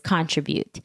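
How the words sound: It is said the British way. "the British way of saying thing is, saying that word is"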